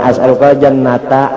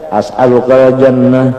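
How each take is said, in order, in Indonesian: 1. Kata terakhir berakhiran bunyi 'ata' jelas. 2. Kata terakhir berakhiran bunyi 'ah' pendek. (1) "Jangan as'alukal jannata, nah selamat" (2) "ada bahari orang nyambat bawa kop baca as'alukal jannah, lalu ditempelengnya"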